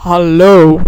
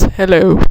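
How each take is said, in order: First: "Hallo" said the Dutch way, stressed second syllable; Dutch pronunciation of hallo. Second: Said in the usual way. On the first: Shown as a demonstration. Repeating it for listeners to hear, "Hallo" in Dutch. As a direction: pronounce "Hallo" as a Dutch word. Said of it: "Hear that?". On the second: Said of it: "That's hello".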